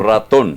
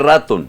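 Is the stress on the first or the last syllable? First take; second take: last; first. First: The stress is on the last syllable. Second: The stress is on the first syllable. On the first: The speaker calls it right. "sino ratón" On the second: The speaker calls it wrong. "usted no dice ratón"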